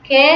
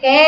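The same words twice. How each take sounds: First: কে with a short closed "e", as "ke"; correct closed vowel. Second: কে stretched out as "kææ"; wrong open vowel. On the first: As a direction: say কে straight, without stretching. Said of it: "সরাসরি একারের মতোই উচ্চারণ করছি". (কে না টেনে, সরাসরি এ-কার) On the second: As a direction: drag কে into a long open "æ". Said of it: "বলতেছি না". (কে টেনে ক্যা-র মতো) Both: Shown as a demonstration.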